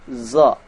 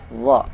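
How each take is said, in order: First: It begins with a buzzing z sound. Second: It begins with a th sound, tongue out. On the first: The speaker calls it wrong. "Jangan sampai kita membaca huruf dha dengan bunyi za" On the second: The speaker calls it right. "Yang benar ada dha"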